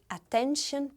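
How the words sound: It is said with an English pronunciation. "Em inglês se diz attention"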